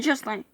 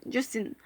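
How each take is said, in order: First: Justin with a nasal French ending, "zhoos-tan"; French pronunciation. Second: Justin with an English "in" ending, like the singer's name; English pronunciation. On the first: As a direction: say Justin as a French word, nasal last syllable. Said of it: "je les appelle Justin". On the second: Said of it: "Je ne les appelle pas Justin". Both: Shown as a demonstration.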